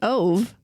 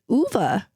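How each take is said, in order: First: The name is said with an anglicized pronunciation. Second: The name is said with a Swedish pronunciation. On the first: The speaker calls it wrong. "we've been saying Ove, but it's not" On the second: The speaker calls it right. "It's it's Uva"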